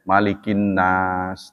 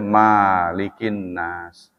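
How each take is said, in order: First: The first vowel is kept short. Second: The first vowel is held long. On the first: The speaker calls it right. "semua sepakat bacanya pendek" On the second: The speaker calls it wrong. "tidak boleh"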